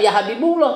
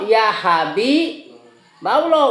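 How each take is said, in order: First: The vowel after Habib is a u sound. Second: The vowel after Habib is an a sound. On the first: The speaker calls it wrong. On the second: The speaker calls it right.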